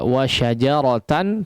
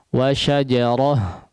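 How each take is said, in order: First: The word ends with a full 'tan' sound. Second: The word ends with a soft 'ah' sound. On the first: This is how the word is written. "tulisannya seperti itu" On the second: The reader stops on this word. "dibaca ketika kita mewaqaf dalam kata tersebut"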